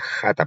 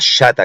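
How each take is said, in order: First: The word begins with a harsh throaty sound. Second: The word begins with a soft sh sound. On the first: The speaker calls it right. "la pronunciación correcta es jata" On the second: The speaker calls it wrong. "es una transliteración inglesa del hebreo"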